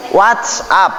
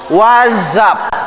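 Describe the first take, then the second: First: WhatsApp said as "watsap" with a hard S; the wrong reading of WhatsApp, with a crisp S sound. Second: WhatsApp said as "wazap" with a buzzing Z. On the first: Teacher showing students the wrong WhatsApp, with a hard S. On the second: Teacher showing students the right WhatsApp, with a Z sound. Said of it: "Pakai Z". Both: Shown as a demonstration.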